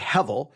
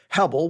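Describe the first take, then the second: First: The middle consonant is a v sound. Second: The middle consonant is a b sound. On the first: The speaker calls it right. "the B sound gets a V sound" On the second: The speaker calls it wrong. "which would be wrong"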